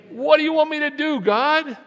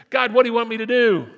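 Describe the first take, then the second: First: Much higher, louder and fast; congregation refrain, louder. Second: Louder, faster call-and-response; congregation refrain. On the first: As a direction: push them to shout it back. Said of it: "Let me try it again". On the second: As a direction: lead the church in saying it aloud. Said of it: "Would you say that with me?". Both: Shown as a demonstration.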